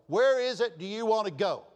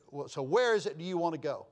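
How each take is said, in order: First: Louder and higher, pressing each word; exasperated repeat. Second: Said in the usual way. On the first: Retold or imitated. Host asking a hard-to-please guest where to eat, exasperated. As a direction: ask it with patience running out.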